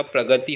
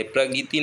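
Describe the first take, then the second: First: प्रगति said as "pragati", short a after g; correct middle vowel. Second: प्रगति said as "pragiti", i after g; wrong middle vowel. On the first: Teacher repeating the correction, प्रगति said as "pragati". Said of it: "प्रगति होता है". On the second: Teacher repeating the mistake, प्रगति said as "pragiti". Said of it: "प्रगति नहीं होता". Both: Shown as a demonstration.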